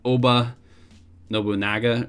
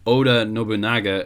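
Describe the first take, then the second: First: The first name is said with a 'b' sound. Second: The first name is said with a 'd' sound. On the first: The speaker calls it wrong. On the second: The speaker calls it right.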